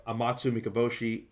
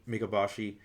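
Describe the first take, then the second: First: "Amatsu Mikaboshi" ending mee-kah-BOH-shee; long O pronunciation. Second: "Mikaboshi" as mee-kah-BAH-shee; open A pronunciation. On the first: Reviewer introducing the god of evil, "Mikaboshi" with a long O in BOH. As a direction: say "Mikaboshi" with BOH as third syllable. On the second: Reviewer retrying the god's name, "Mikaboshi" with an open AH in BAH. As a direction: say "Mikaboshi" with BAH as third syllable. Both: Real, not acted. Tries the name two ways.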